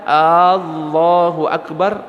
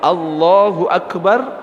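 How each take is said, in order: First: The first vowel of Allahu is drawn out long. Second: The first vowel of Allahu is short. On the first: It asks whether God is the greatest. The speaker calls it wrong. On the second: God is the greatest. The speaker calls it right.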